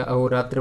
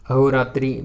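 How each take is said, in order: First: अहोरात्र ending in tra, no i; correct form. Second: अहोरात्रि ending in an i sound; incorrect form. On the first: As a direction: finish अहोरात्र on a short a. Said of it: "बनता है". (सही रूप अहोरात्र, अंत में 'त्र') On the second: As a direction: finish अहोरात्रि on tri, punched louder. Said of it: "बिल्कुल नहीं बनेगा". (गलत रूप अहोरात्रि, अंत में 'त्रि') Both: Shown as a demonstration.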